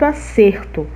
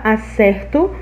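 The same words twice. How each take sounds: First: The stressed e is a closed vowel. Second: The stressed e is an open vowel. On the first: It is a noun meaning correctness. "Olha esse E fechado" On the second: It is a verb meaning to get right. "o E aberto"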